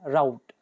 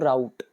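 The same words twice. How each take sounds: First: The final t is soft, in a British accent. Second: The final t is strong, in an Indian accent. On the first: "अगर अंग्रेजों की तरह pronounce करेंगे तो टी थोड़ा सा कम sound देगा" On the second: "इंडियन की तरह बोलेंगे तो"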